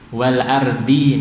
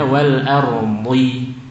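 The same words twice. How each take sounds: First: The d sound is light and thin. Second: The d sound is heavy and thick. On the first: The speaker calls it wrong. "ini yang sering nggih" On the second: The speaker calls it right.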